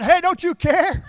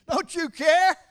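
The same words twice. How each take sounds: First: Much higher and louder, slow "hey, don't you care"; hammed-up frantic shout at Jesus; mock indignant yell. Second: High, loud, whiny complaint; a hammed-up frantic shout of "don't you care"; mock indignant cry. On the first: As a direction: holler it at a sleeping friend. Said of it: "They said". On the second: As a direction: cry it out like a frightened disciple scolding a friend. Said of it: "That's how a friend talks to a friend".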